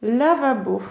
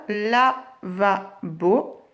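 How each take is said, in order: First: Said in the usual way. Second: Lavabo very slowly as la... va... bo; split into syllables. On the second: Shown as a demonstration. Teacher having pupils trace, Lavabo in three slow pieces. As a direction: clear pause after each syllable of "Lavabo". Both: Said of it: "tracez vos syllabes".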